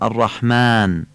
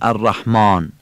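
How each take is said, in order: First: The long a vowel is thin and light. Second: The long a vowel is heavy and dark. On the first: The speaker calls it right. "میگیم" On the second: The speaker calls it wrong. "نمیگیم"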